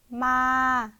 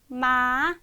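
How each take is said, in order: First: The pitch stays level throughout. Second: The pitch rises steadily throughout. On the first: "평평하게" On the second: "쭉 올라가는 음으로"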